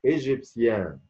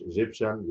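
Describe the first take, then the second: First: إيجيبسيان the French way, ending clearly sounded; French pronunciation. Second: إيجيبشن ending in English sh-an; إيجيبشن the English way, short last syllable; wrong English pronunciation. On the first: Teacher models the word for learners, French pronunciation. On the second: Teacher shows learners the mistake, English pronunciation. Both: Shown as a demonstration. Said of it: "مش إيجيبشن".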